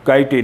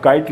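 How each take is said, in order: First: काइटे in two syllables, "kai-tay"; sounded final E. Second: Said in the usual way. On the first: Shown as a demonstration. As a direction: voice the silent E at the end of काइटे. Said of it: "नहीं कहा करते". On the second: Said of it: "उसे बोला नहीं जाता है".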